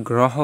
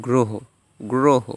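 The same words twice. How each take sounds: First: গ্রহ as "graw-ho", open vowel; wrong open vowel. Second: গ্রহ as "gro-ho", closed o; o-kar pronunciation. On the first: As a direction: say গ্রহ with "aw" after gr. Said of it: "আমরা কি গ্রহ বলি?". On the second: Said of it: "উচ্চারণটা ওকারান্ত হয়ে গিয়েছে". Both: Shown as a demonstration.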